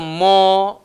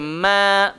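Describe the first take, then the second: First: The vowel sounds heavy and rounded. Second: The vowel sounds light, thin and soft. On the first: The speaker calls it wrong. "Tak boleh baca mo" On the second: The speaker calls it right. "kena baca ma, ma, kena lembut"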